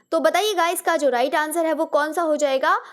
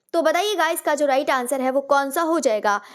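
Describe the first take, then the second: No difference in how they are said.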